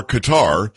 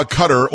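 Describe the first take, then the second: First: Qatar said as "kuh-TAR"; second-syllable stress. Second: Qatar said as "CUT-er"; first-syllable stress. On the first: Host offering the other pronunciation, Qatar as "kuh-TAR". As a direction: stress the end of Qatar, rhyming with "car". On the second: Host offering one way to pronounce it, Qatar as "CUT-er". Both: Shown as a demonstration. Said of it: "depending on how you like to pronounce it".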